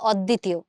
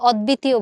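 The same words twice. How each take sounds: First: No 'b' sound; the 'd' is doubled. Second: A 'b' sound is pronounced after the 'd'. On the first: The speaker calls it right. "তুমি কি বলো? অদ্বিতীয়" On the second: The speaker calls it wrong. "তুমি কিন্তু অদ্বিতীয় বলো না"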